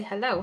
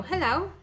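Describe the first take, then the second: First: Said in the usual way. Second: High sing-song hello to chickens; calling chickens. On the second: Real, not acted. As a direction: greet the hens in a high chirpy voice. Greeting the chickens.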